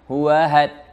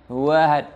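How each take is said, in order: No difference in how they are said.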